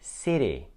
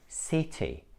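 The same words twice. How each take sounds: First: The middle T sounds like a soft D. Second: The middle T is a clear T sound. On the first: It sounds American. "you should not pronounce it like D, because this is what Americans do" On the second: It sounds British. "in British English, these words sound like"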